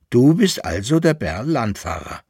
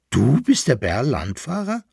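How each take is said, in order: First: "Du bist also der Bärlandfahrer" as a statement, falling at the end; satisfied conclusion. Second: Astonished question, rising at the end; surprised exclamation. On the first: Poodle has checked the teeth, "Du bist also der Bärlandfahrer" as a falling conclusion. Poodle confirms the man's identity. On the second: Poodle finds the man he sought, surprised question. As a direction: call it out in disbelief. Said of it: "rief der Pudelhund". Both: A narrator's reading.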